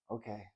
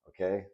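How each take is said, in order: First: Very soft, falling "okay"; small reply. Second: OKAY as a gentle checking question. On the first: Tearful boy agreeing with his dad, small and soft. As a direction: answer "okay" quietly, letting it drop. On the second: Father checking his son is listening, questioning "okay". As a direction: lift "okay" lightly, seeking agreement. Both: A narrator's reading.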